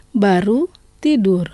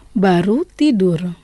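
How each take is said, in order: First: Said in the usual way. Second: Lent, chaque mot bien posé; lent et articulé. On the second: Shown as a demonstration. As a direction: dicter lentement pour que l'élève répète. (prof qui dicte aux élèves, lentement) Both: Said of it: "je vais prononcer lentement".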